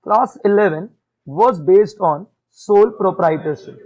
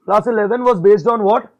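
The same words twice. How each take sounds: First: Very slow, loud, word by word; a teacher dictating slowly and firmly; slow dictation. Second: Very slow, loud question to the class, then the answer; teacher prompting the class to answer, slow and loud; slow quiz prompt. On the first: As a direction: spell it out slowly for the class. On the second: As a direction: quiz the class slowly, stressing what. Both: Shown as a demonstration. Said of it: "तो मैं बहुत धीरे बोलूंगा".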